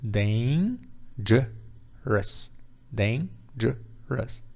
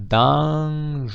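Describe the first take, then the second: First: DANGEROUS as dain, juh, rus, slow and separated; correct pronunciation by syllables. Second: DANGEROUS misread as dahn-zhuh-rose; drawn-out wrong guess, DANGEROUS with an AH and a final ROSE; wrong spelling-based pronunciation. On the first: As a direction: sound out DANGEROUS piece by piece with an AY in the first syllable. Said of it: "But it's not". (dangerous correto, "dêin-djã-rãs", sílaba por sílaba) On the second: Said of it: "that pronunciation would be". (dangerous pronunciado errado, como se lê, "dan-jê-rôus") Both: Shown as a demonstration.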